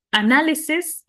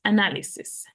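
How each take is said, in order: First: Análisis raised and said carefully; análisis said clearly. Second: Said in the usual way. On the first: Shown as a demonstration. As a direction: model Análisis for the class. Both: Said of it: "la pronunciación es, pues, la misma".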